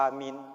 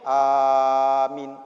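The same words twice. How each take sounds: First: The first vowel is short. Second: The first vowel is long. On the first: It means believe. "Kalau yang tadi A-nya pendek, minnya pendek" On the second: It means trust. "A-nya panjang, minnya pendek"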